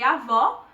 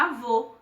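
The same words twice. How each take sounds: First: "avó" with a wide open ó; open final vowel. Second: "avô" with a closed, rounded ô; closed final vowel. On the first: Teacher contrasting the two accents, open ó in "avó". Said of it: "Uma marcação é aberta". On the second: Teacher contrasting the two accents, closed ô in "avô". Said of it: "e a outra é fechada". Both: Shown as a demonstration.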